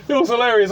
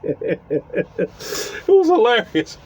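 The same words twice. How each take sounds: First: Said in the usual way. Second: Laughing. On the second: Real, not acted. Laughing through the punchline.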